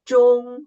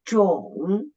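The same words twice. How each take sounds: First: The pitch stays high and level. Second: The pitch dips low, then rises again. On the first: "the first tone is the highest tone and flight" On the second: "the third tone, down at first, and then raise up"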